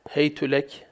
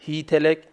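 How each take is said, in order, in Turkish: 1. h a ünlüsü alır; t u alır. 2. h i ünlüsü alır; t a alır. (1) "bi dammit ta'i, hey tülek de okunmuş" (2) "bi kesril ha'i, hi telek de okunmuş"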